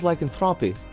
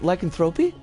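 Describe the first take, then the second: First: The O is said softly, not as hard O. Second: The O is said as a hard O. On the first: "I always thought it was lycanthropy" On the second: "Is it really a hard O?"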